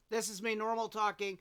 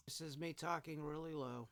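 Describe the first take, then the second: First: Said in the usual way. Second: Soft, low, held-down voice; talking really low. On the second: Shown as a demonstration. Demoing his softest talk for the recording test, talking really low. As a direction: speak way down for the level test.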